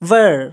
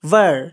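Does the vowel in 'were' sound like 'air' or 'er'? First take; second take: er; er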